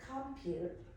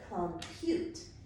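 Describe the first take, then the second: First: The stress is on the first syllable. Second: The stress is on the second syllable. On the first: The speaker calls it wrong. "So we did compute" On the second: The speaker calls it right. "Now I want you to accent the second syllable"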